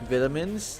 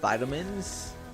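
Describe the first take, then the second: First: It is said with a British pronunciation. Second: It is said with an American pronunciation. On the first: "As the British would say" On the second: "not vitamins"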